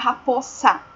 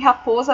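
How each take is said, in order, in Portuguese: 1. A consoante do meio é um som de S, com chiado. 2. A consoante do meio é um som de Z, com vibração.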